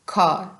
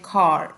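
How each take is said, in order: First: The final r sound is dropped, British style. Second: The final r sound is pronounced, American style. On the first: This is how British people say it. "British people pronounce करते हैं word कार को एस खार, मतलब वो आर जो है वो word pronounce नहीं करते" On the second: This is how American people say it. "American ... वो इस तरह से बोलते हैं खार, वो मतलब आर को प्रोनाउंस करते हैं"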